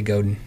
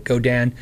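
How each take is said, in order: First: "Godin" with the ending reduced to din; habitual pronunciation. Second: "Go Dan" with a full open DAN; careful pronunciation. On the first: Streamer not paying attention, "Godin" run together as GOH-din. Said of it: "If I'm not, I say". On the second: Streamer paying attention to himself, "Go Dan" with both syllables full. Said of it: "I say it right". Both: Shown as a demonstration.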